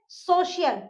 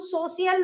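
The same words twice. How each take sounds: First: The middle consonant is a 'sh' sound. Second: The middle consonant is a plain 's' sound. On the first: The speaker calls it right. "स नहीं श" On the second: The speaker calls it wrong. "इसको हम सोशियल नहीं बोलते हैं"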